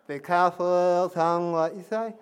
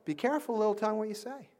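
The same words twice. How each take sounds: First: Louder song line with the tongue held; holding tongue with fingers. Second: Said in the usual way. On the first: Shown as a demonstration. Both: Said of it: "do this with me".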